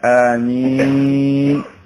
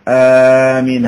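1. الحركة الأولى تبقى قصيرة. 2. الحركة الأولى تُمدّ مدًّا طويلًا. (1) "أو يقال آمين" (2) "آمين هكذا يقال"

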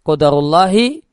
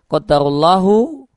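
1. Kata ini berakhir dengan vokal i. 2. Kata ini berakhir dengan vokal u. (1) "atau dibaca kasrah menjadi mudhaf ilaih" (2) "Allahnya itu bisa dibaca dhammah menjadi fa'il"

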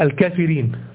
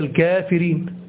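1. الحركة بعد الكاف قصيرة. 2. الحركة بعد الكاف طويلة. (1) "لو هو نطقها حسب النطق الإعلامي بتاع الإملاء بتاعه فهنطقها الإيه" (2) "لكن هي"

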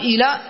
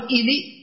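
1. الحركة الأخيرة هي a خالصة. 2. الحركة الأخيرة هي i خالصة. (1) "بحيث تكون فتحة خالصة" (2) "بحيث تكون كسرة خالصة"

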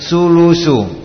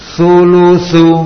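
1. Konsonannya bunyi s biasa. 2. Konsonannya bunyi th, lidah menyentuh gigi. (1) "Kalau enggak tadi sin sulusu" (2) "Harus benar-benar ditempelkan lidahnya"

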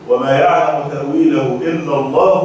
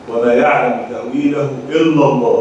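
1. الجملة تستمر بعد كلمة «الله» دون وقف. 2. الجملة تنتهي بوقف تام بعد كلمة «الله». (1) "وقف آخر إن احنا نقول وما يعلم تأويله إلا الله والراسخون في العلم" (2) "إما نقول وما يعلم تأويله إلا الله بتقف"

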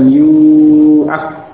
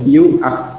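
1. Vokal pertama dibaca panjang. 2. Vokal pertama pendek. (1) "bukan yu'ak, bukan seperti itu" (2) "dibaca pendek domah sebelumnya"

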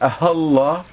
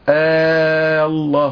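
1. الهمزة الأولى مُسهَّلة بين الهمزة والألف. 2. الهمزة الأولى تُمَدّ فتصير ألفًا طويلة. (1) "وأما التسهيل فكأننا نقول الله هكذا" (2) "هذا فيما يتعلق بالإبدال"

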